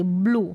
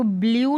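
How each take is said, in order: First: ब्लू as "bloo", no glide; oo pronunciation. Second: ब्लू misread as "blyoo"; wrong yoo pronunciation. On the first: Teacher giving the right reading, ब्लू as "bloo". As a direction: say ब्लू with a pure long "oo". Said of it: "क्या पढ़ेंगे?". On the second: Teacher warning against a misreading, ब्लू as "blyoo". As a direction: add a y-glide to ब्लू. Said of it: "नहीं पढ़ेंगे". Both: Shown as a demonstration.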